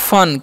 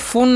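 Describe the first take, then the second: First: The vowel is a short 'uh' sound. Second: The vowel is a long 'oo' sound. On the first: The speaker calls it right. "तो इसे हम लोग पढ़ते हैं फन" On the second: The speaker calls it wrong. "इसे फून नहीं हम लोग पढ़ते"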